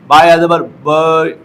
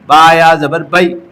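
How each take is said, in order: First: The final syllable ends without a glide. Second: The final syllable glides clearly into ai. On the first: The speaker calls it wrong. "ये गलत है।" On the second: The speaker calls it right. "साफ और वाज़ेह अंदाज में"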